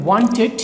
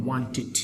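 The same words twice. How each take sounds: First: ওয়ান্টেড said loud with a ted ending; the wrong ওয়ান্টেড, rising at the end; ওয়ান্টেড with a full ted ending; wrong pronunciation. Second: ওয়ান্টেড softer, ending in tit; the right ওয়ান্টেড, quiet and falling; ওয়ান্টেড ending in a light tit; correct pronunciation. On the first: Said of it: "এটা ভুল উচ্চারণ". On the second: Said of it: "উচ্চারণ হবে ওয়ান্টেড". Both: Shown as a demonstration.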